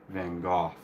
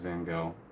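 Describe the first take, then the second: First: The name is said the less familiar way. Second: The name is said the common way. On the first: This is the name's proper pronunciation. "I know it's Van Gogh in particular" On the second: This is how most people say the name. "most people know him as Van Gogh"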